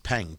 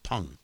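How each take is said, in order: First: Peng with an E as spelled; mistaken pronunciation. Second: Peng said as "Pung"; actual pronunciation. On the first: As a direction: say Peng to rhyme with "length" minus its ending. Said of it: "it was pronounced Peng". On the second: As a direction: say Peng with an UH vowel, like P-U-N-G. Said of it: "P U N G. It's how it's pronounced". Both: Shown as a demonstration.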